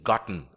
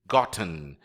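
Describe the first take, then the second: First: The t is swallowed into a nasal sound. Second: The t sound is clearly pronounced.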